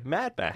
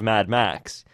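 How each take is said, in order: First: The stress falls on the word Mad. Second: The stress falls on the word Max. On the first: "you put the emphasis on the top of Mad" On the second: "Instead of Mad Max"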